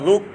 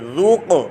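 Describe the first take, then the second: First: The final q stops without an echoing bounce. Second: The final q ends with an echoing bounce. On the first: The speaker calls it wrong. "कलकला नहीं किया किसी ने तो वो ऐसे पड़ेगा रुक" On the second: The speaker calls it right. "इसमें कलकला करेंगे रुक"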